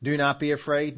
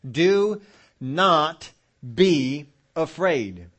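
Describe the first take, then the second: First: Said in the usual way. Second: DO, NOT, BE each loud and drawn out with gaps; emphatic command. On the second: Acted. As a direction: hammer out "Do not be afraid" slowly, word by word. Repeats God's command with force.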